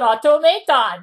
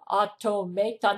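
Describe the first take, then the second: First: It is said in a Japanese accent. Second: It is said in a standard English accent.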